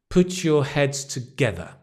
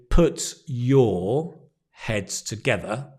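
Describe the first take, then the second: First: 'Put your' is joined with a 'ch' sound. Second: 'Put' and 'your' are said as separate words. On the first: "Often we link put your... ch" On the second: "you can say, put your heads together. That's okay"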